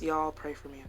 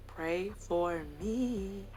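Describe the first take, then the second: First: Said in the usual way. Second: "Pray for me" stretched very slowly; mock-solemn, slow, soft "Pray for me"; drawn-out plea. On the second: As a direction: draw out each word of "Pray for me", softly. Slow, deliberate repeat of plea.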